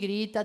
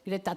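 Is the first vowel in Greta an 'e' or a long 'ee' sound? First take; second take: ee; e. First: The first vowel is a long 'ee' sound. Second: The first vowel is a short 'e' sound. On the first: The speaker calls it right. "pronunciase Grita, así con estirando I" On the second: The speaker calls it wrong. "no Greta Thunberg"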